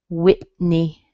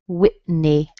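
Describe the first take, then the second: The two takes are said the same way.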